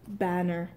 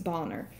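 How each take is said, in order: First: The first vowel is a short a. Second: The first vowel is a broad ah.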